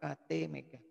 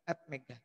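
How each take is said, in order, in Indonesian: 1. Huruf A dan T dieja satu per satu. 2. A dan T dibaca sebagai satu suku kata. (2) "bukan Atmega"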